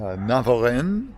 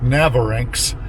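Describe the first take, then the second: First: The final x is left silent. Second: The final x is sounded at the end. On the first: The speaker calls it right. "It has an X at the end of it, but I'm pretty sure you don't say that" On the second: The speaker calls it wrong. "looks like Navarinx. I'm sure it's not pronounced that way"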